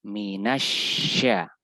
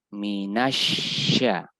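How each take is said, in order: Both takes have the same delivery.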